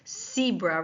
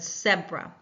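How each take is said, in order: First: It uses the Canadian pronunciation of the word. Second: It uses the British pronunciation of the word. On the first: "Canadians tend to pronounce this animal with the stripes zebra" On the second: "rather than zebra, but you will hear zebra in uh, the U K"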